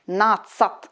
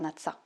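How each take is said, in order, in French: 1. Le mot finit par un t bien net. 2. Le mot se termine sans le t final. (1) "bien prononcer le at, tsat, à la fin du mot" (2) "pas natsa"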